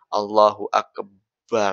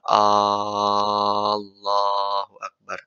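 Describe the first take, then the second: First: The b sound in Akbar is doubled. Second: The opening vowel of Allah is lengthened. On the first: "nggak boleh juga baknya ditasydidkan" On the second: "Nggak boleh memanjangkan hamzahnya"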